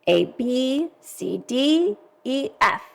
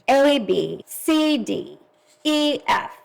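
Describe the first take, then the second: First: Stress falls on the second letter of each pair. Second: Stress falls on the first letter of each pair. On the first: "flip the accent so they can practice accenting the second syllable" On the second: "accenting the first syllable"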